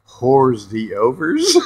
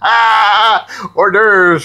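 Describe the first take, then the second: First: It is sounded out as separate English words. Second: It is said as the French term. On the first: The speaker calls it wrong. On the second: The speaker calls it right.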